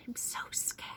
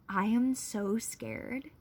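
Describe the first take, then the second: First: Breathy scared whisper; hushed confession of fear. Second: Slow, drawn out so scared; slow emphatic. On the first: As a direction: whisper it close to the camera. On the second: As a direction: stretch out I am so scared. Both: Real, not acted.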